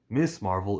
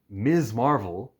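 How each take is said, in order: First: The first word ends with an S sound. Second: The first word ends with a Z sound. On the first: The speaker calls it wrong. "is the wrong way to say it" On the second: The speaker calls it right. "is how you say it"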